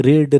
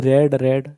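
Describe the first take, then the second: First: ରିଡ୍ said with a long ee; loud, clear ରିଡ୍ with an ee vowel; present-tense read. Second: ରେଡ୍ said with an e vowel, like red; past-tense read. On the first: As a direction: say ରିଡ୍ to rhyme with need. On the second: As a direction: say ରେଡ୍ to rhyme with bed. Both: Shown as a demonstration. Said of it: "ପ୍ରନାଉନ୍ସିଏସନ୍ ଟିକେ ଅଲଗା ହେବ".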